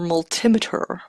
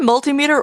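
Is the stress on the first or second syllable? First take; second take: second; first. First: The stress is on the second syllable. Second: The stress is on the first syllable.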